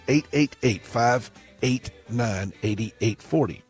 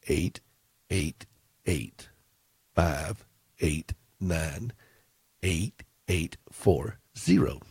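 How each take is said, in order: First: The number is read at a normal, quicker pace. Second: The number is read slowly and deliberately.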